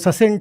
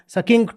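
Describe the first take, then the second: First: Both c's are sounded as s. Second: Both c's are sounded as k. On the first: "अगर दो सी हैं तो दोनों सी सी ही हैं" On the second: "अगर दो सी हैं तो दोनों सी सी ही हैं"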